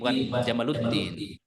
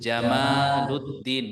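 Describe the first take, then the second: First: The vowel in the name is short. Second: The vowel in the name is long. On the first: It means camel of religion. The speaker calls it wrong. "Unta agama" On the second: It means beauty of religion. The speaker calls it right. "harus panjang"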